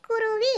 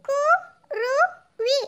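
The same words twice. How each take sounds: First: Said in the usual way. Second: குருவி sounded out very slowly, letter by letter. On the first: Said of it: "உச்சரித்து வாசிங்க". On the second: Shown as a demonstration. Pupil reads aloud for the teacher, குருவி syllable by syllable. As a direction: break குருவி into separate drawn-out syllables. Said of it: "ஒவ்வொரு எழுத்தா உச்சரித்து வாசிங்க".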